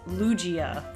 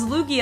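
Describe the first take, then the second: First: The g is soft, like a j. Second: The g is hard, like in go. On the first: The speaker calls it wrong. "I thought it was Lugia for some reason. I guess because the G followed by the I" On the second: The speaker calls it right. "it was Lugia"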